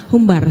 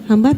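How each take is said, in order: First: Humbar said with a u in the first syllable; corrected pronunciation. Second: Hambar said with an open a in the first syllable; wrong pronunciation. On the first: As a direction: humbar firmly corrected with a u sound. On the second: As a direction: Hambar as a questioning slip with an a sound. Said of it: "Humbar, hambar, humbar, maaf". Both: Shown as a demonstration.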